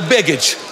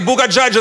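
First: The word is pronounced the usual English way. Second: The word is read letter by letter, German-style. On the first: It means the luggage drop. The speaker calls it right. "Это baggage" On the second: The reader misreads it as a place name. The speaker calls it wrong. "не читай на немецком английские слова"

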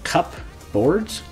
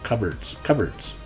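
First: The word is said carefully, each part pronounced fully. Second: The word is said quickly and reduced, like 'cubberds'. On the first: "Now it's spelled cupboards" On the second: "That's how you'd say it quickly"

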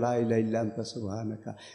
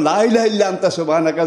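First: It is said softly. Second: It is said loudly.

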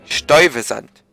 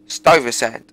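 First: The name is pronounced the German way. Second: The name is pronounced the English way. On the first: "Hat er gerade gesagt" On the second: "Und auf Englisch"

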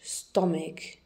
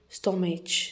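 First: The middle consonant is a k sound. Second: The middle consonant is a ch sound. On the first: The speaker calls it right. "We pronounce ch as a k" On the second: The speaker calls it wrong. "We don't say stomach"

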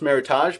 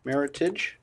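First: The word does not rhyme with heritage. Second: The word rhymes with heritage. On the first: The speaker calls it wrong. "often pronounced Meritage" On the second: The speaker calls it right. "the correct pronunciation rhymes with heritage"

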